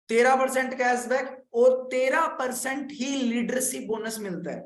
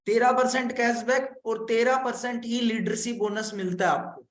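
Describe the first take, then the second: First: Slow, deliberate, stressing each तेरह; slow emphasis. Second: Said in the usual way. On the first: Shown as a demonstration. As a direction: spell out तेरह percent word by word for the class. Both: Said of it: "मैंने आपको again repeat कर देता हूँ".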